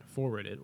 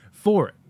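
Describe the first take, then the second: First: "forward it", quieter, run into one word; slurred mispronunciation. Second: "For it" loud and higher, emphatic; corrected pronunciation. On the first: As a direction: stumble on "forward it" with an extra syllable. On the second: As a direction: hit "For it" firmly, with no w sound. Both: Real, not acted. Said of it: "not forward".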